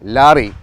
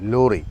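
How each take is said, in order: First: The first vowel is an open 'ah'. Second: The first vowel is a rounded 'oh'. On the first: This is how southern speakers say it. "തെക്ക് ഭാഗത്ത് ലാറി എന്ന് പറയുമ്പോൾ" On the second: This is how Malabar speakers say it. "മലബാറിൽ ലോറി എന്നേ പറയുള്ളൂ"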